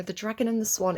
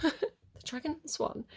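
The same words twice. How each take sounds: First: Said in the usual way. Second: Laughing through the title, softer; amused laugh. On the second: Real, not acted. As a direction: chuckle at the pub-like name. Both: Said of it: "It sounds like a British pub".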